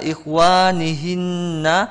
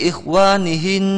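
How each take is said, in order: First: The word ends with an extra vowel. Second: The word ends on a consonant. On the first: The speaker calls it wrong. "jika wakaf bukan seperti itu dibacanya" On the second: The speaker calls it right. "tapi ikhwanihin"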